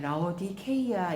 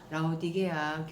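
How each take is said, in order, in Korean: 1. 이 이름은 k 소리로 발음합니다. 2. 이 이름은 부드러운 g 소리로 발음합니다.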